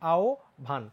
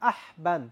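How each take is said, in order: First: An o sound is followed by bh. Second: The h and a plain b are sounded. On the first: The speaker calls it right. "হয়ের উচ্চারণ হয় ও এর মতো আর বটা হয়ে যায় ভয়ের মতো।" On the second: The speaker calls it wrong. "অনেকে এটাকে সুন্দর করে বলে আহবান, এটা কিন্তু আহবান না।"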